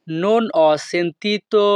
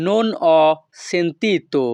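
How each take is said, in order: First: "non ho sentito" said slowly, word by word; slow repeat. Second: Said in the usual way. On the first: Shown as a demonstration. Teacher repeating for students, slow and careful.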